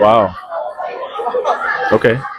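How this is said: It sounds flirty and teasing.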